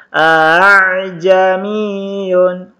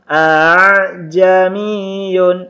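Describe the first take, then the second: No difference in how they are said.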